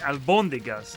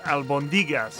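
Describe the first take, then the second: First: The stress is on the second syllable. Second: The stress is on a different syllable. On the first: "does that accent over the O mean that the emphasis is on the albondigas" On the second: "not albondigas?"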